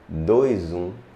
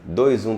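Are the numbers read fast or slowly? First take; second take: slowly; fast. First: The numbers are read slowly and separately. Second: The numbers are read quickly in a run. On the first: It reveals that there are two number ones. The speaker calls it right. "Mas se você lê devagar" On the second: The sequence seems to have no logic. The speaker calls it wrong. "Se você lê assim, ... bem rápido"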